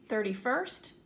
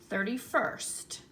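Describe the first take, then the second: The two takes are said the same way.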